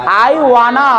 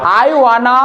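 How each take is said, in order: The two takes are said the same way.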